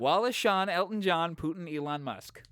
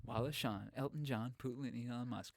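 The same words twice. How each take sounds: First: High, punchy rhythmic list of names; playful rhyme recital. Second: Much softer, understated list of names; hushed rhyme recital. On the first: Performing a made-up rhyme, repeated. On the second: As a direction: toss the rhyme off quietly, fading out. Same rhyme repeated, now hushed. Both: Pretend.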